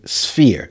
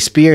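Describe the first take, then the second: First: The s is followed by an f sound. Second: The s is followed by a p sound. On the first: The speaker calls it right. "I heard people say sphere" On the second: The speaker calls it wrong. "I heard people say spear"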